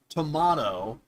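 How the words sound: The middle vowel is said the British way. "The English would say tomato"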